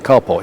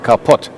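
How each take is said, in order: First: The name ends with a v sound. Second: The name ends with a t sound. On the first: "he wouldn't say Karpov" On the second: "he would say Karpot"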